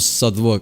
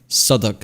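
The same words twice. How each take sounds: First: The middle w is pronounced. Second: The middle w is silent. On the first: The speaker calls it wrong. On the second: The speaker calls it right.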